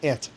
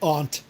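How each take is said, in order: First: It sounds just like the insect word ant. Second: It sounds different from the insect word ant. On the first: This is how people say it in this region. "they're pronounced the same in this part of the world" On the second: This is how people elsewhere say it. "I wouldn't say aunt. That just not this part of the world"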